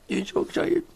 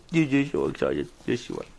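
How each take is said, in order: First: High, softening coo to the dog; high-pitched pet-talk praise. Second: Dropped-down coo to the dog; softer, low-pitched doting. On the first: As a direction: coo "so excited" up in a squeaky pitch. Baby talk to dog, high take. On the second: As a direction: coo "so excited" in a lowered pet-talk voice. Baby talk to dog, low take. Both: Real, not acted.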